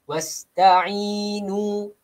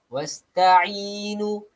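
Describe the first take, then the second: The two takes are said the same way.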